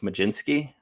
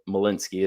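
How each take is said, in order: First: The middle consonant is a J sound. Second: The middle consonant is not a J sound. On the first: "I think it's supposed to be pronounced Majinski. The D Z uh, normally makes like a J sound" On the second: "I hear a lot of guys call him Mal- Malinsky as well"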